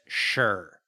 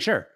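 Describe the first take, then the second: First: It sounds sarcastic. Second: It sounds sincere.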